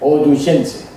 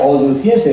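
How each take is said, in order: First: The consonant before -ense is a ch sound. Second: The consonant before -ense is a soft s/th sound. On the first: This is how a Latin speaker would say it. The speaker calls it right. "diría oduchense" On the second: This is not how a Latin speaker would say it. The speaker calls it wrong.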